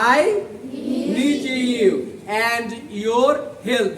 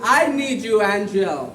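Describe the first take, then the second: First: Each word is said fully and separately. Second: The words blend, sounding like 'need you angel'. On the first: "আমি মূলত বলেছি I নিড ইউ অ্যান্ড ইওর help" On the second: "ডি আর ওয়াই মিলিত হলে উচ্চারণ হয় জেড ... এইচ আসলে উচ্চারণ হয় না"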